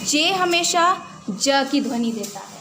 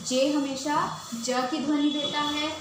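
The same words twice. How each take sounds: First: Louder, punching the rule "जे हमेशा ज की ध्वनि देता है"; emphatic rule. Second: Said in the usual way. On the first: Shown as a demonstration. Teacher stressing the rule to students, louder. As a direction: drive "जे हमेशा ज" home, louder, for the class.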